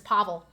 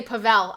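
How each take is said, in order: First: Pavel as PAH-vul, stress on the first syllable; corrected pronunciation. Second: Pavel as puh-VELL, stress on the end; mistaken pronunciation. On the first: Streamer reminding herself of the name, Pavel said PAH-vul. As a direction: say Pavel with open PAH and weak ending. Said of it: "I have to tell myself". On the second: Streamer admitting her habit, Pavel said puh-VELL. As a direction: say Pavel with a weak first vowel and stressed VELL. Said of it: "I keep wanting to say". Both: Shown as a demonstration.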